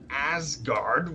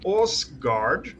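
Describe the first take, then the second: First: The first vowel sounds like 'a'. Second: The first vowel sounds like 'o'. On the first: This is the form most people commonly use. The speaker calls it wrong. "not Asgard, which everyone calls it" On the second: This is the native Norwegian form of the name. The speaker calls it right.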